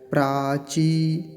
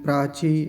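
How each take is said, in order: First: The word is careful and the final vowel is long. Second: The word is rushed and the final vowel is short. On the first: The speaker calls it right. "दीर्घ ईकार है, बड़ा ध्यान से उच्चारण करेंगे" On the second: The speaker calls it wrong. "बड़ी जल्दी बोल जाते हैं, प्राची ऐसे करके"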